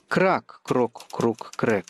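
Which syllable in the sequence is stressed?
крак. The stress falls on the first syllable, крак.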